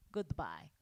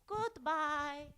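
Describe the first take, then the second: First: Low, soft character goodbye; searching for character voice. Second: High, drawn-out character goodbye; sing-song high farewell in a put-on voice; searching for character voice. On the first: Acted. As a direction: drop the put-on voice low for farewell. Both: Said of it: "I can't find it".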